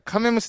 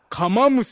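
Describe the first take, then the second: First: The second syllable is pronounced 'me'. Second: The second syllable is pronounced 'ma'. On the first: The speaker calls it right. "カメだよって一応言うんだけど。" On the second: The speaker calls it wrong. "違うよ。"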